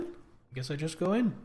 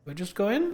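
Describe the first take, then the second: First: "in" falling to a settled end; falling statement. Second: "in" rising as a question. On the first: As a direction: say "I just go in" with a falling, decided "in". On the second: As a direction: ask "Do I just go in?" rising on "in". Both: Real, not acted.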